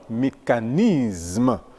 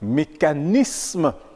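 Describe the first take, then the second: First: The s before m sounds like z. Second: The s before m sounds like s. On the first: The speaker calls it wrong. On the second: The speaker calls it right.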